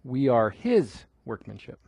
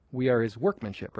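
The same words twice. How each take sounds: First: "his" stretched and lifted, "workmanship" dropping away; stress on his. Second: "workmanship" carries the emphasis; stress on workmanship. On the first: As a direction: punch the word "his". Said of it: "I think it should be his". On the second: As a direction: lean on "workmanship", pass lightly over "his". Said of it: "every time people have emphasized workmanship". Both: Shown as a demonstration.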